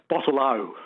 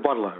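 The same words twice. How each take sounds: First: The final O is strongly emphasized, Western Australian style. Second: The final O is said plainly.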